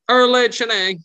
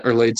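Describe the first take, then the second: First: Erlade Shanae in a much higher, louder squeaky voice; a squeaky young kid blurting his own name. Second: Said in the usual way. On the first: Acted. Squeaky kid Erlade introducing himself to the guards. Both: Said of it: "the squeaky kid".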